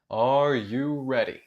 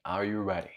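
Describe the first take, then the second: First: Rallying question. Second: Lower, softer check-in; low-key question. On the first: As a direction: ask it out to everyone, rousing them. Repeats the question to rally class. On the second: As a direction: ask it quietly, low in pitch. Asks first low, then repeats louder. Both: Real, not acted.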